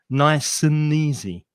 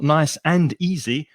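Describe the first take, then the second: First: The words run together, with 'and' weakened. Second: The words are separate, with 'and' said fully. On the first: The speaker calls it right. "weak forms and connected speech" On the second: The speaker calls it wrong. "not nice and easy"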